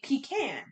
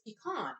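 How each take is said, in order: First: The last syllable sounds like 'can'. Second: The last syllable sounds like 'con'. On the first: The speaker calls it right. "should be pronounced can. So it should be pecan" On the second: The speaker calls it wrong. "no, no, no, it's pecan... Where's the fucking O?"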